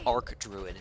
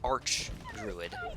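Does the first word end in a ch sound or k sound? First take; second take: k sound; ch sound. First: The first word ends with a k sound. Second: The first word ends with a ch sound. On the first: The speaker calls it right. "I think Arc Druid makes more sense" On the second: The speaker calls it wrong. "a lot of people say Arch Druid"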